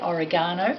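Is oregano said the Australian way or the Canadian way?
Australian. The word is said the Australian way. "that's how Australians say"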